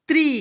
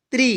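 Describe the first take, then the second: First: त्री with a long, high ee; long vowel. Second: त्री with a brief i; short vowel. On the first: Teacher reciting the त्र series to learners, long vowel. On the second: Teacher reciting the त्र series to learners, short vowel. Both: Shown as a demonstration. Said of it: "Hindi बारह खड़ी सीखेंगे".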